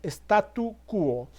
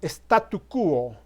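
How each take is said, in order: No difference in how they are said.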